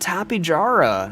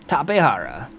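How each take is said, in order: First: The name is pronounced the Southern US way. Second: The name is pronounced the Spanish way. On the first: It is how commenters insist it is said. "if you're very southern" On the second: It follows the scientific pronunciation. "It's a South American discovery named by people who spoke Spanish"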